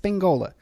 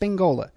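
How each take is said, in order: First: The n sound comes before the g. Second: The same.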